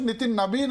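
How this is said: The surname starts with a b sound. This is how eastern states say it. "అని వాళ్ళు పిలుస్తారు. ... వా బదులు బా పలుకుతారు"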